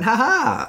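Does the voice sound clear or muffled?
clear. The laugh sounds clear and unmuffled.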